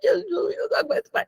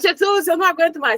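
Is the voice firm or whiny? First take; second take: whiny; firm. First: It is said in a small, whiny voice. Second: It is said in a plain, firm voice. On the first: "Desculpa a vozinha" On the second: "Você não fala"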